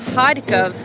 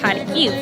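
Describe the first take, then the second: First: The name has the Russian pronunciation. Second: The name has the Ukrainian pronunciation. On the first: "being the Russian pronunciation" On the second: "in Ukrainian"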